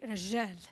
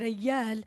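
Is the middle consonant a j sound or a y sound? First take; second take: j sound; y sound. First: The middle consonant is a j sound. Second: The middle consonant is a y sound. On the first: The speaker is from a Bedouin background. "in Bedouin, you would say" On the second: The speaker is from an urban background. "in urban, you would say"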